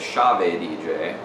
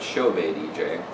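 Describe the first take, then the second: First: The first syllable sounds like 'shav'. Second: The first syllable sounds like 'show'. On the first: This is the speaker's habitual pronunciation. The speaker calls it wrong. "You might accidentally hear me say Chave D J" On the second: This is how the company's own people say it. The speaker calls it right. "the Chave D J people pronouncing it Chauve D J"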